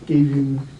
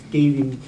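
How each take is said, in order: Both takes have the same delivery.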